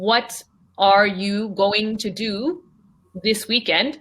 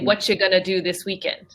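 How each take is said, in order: First: Each word is pronounced fully and clearly. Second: The words are shortened and run together quickly. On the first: The speaker calls it wrong. "I never say" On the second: The speaker calls it right. "I would say"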